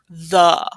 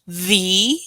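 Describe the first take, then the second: First: The vowel is a short 'uh' sound. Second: The vowel is a long 'ee' sound. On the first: "you kind of make a U sound" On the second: "where you use that long vowel"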